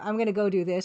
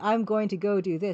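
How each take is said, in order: First: Going to is reduced to gonna. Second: Going to is said in full. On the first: "I'm gonna go" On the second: "I didn't say I'm going to go do this"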